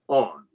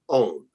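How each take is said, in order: First: The word is said with a short 'on' vowel. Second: The word is said like 'own' with a long vowel. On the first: The speaker calls it right. "turn the light on" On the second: The speaker calls it wrong. "not own"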